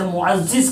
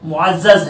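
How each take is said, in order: First: The last vowel is i. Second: The last vowel is a. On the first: The speaker calls it wrong. "ये दुरुस्त नहीं है" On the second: The speaker calls it right. "बल्कि ये मुअज़्ज़ज़ है"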